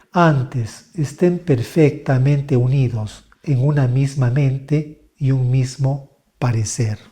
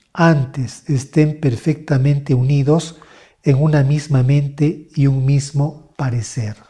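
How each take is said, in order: No difference in how they are said.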